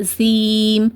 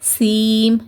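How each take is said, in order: First: The first consonant sounds like an s. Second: The same.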